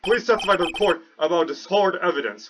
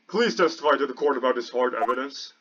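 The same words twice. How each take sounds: First: It is not in the judge's voice. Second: It is spoken in the judge's voice.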